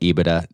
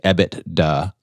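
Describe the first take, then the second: First: It is said smoothly as one joined word. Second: It is split with T and D clearly separated. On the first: "I call it EBITDA" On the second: "make the distinction between the T and the D very clear and say EBITDA, like it's two words"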